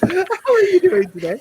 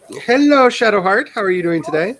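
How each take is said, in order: First: Very high-pitched mock-polite hello; squeaky-high second try at a welcome; redone greeting. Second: Loud high hello easing down; high-pitched welcome to a newcomer; high greeting. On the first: Shown as a demonstration. Let's try that again. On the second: Real, not acted. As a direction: sing out a high, cheery greeting. Greets a newcomer, then retries it.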